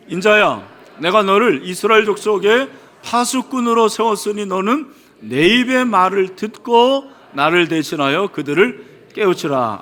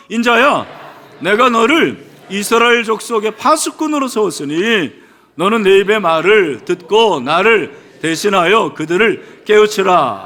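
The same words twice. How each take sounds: First: Said in the usual way. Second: Loud, emphatic scripture reading; loud recitation. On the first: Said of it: "읽도록 하겠습니다". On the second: Real, not acted. Preacher leading the congregation in a second reading, loudly. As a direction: read the verse out louder, leading the room. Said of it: "다시 한번 우리 크게".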